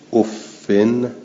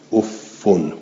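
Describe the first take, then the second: First: It ends in an i vowel plus n. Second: It ends in an u vowel plus n. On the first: "بالکس منبنن" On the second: "به ذمه منبنن"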